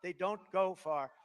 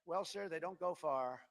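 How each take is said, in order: First: Slow, sing-song childish mock; mocking first grader. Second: Slow, hesitant imitation of the adviser; lightly mock a meek aide; timid adviser. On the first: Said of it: "That sounds so basic". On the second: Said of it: "And the guy goes".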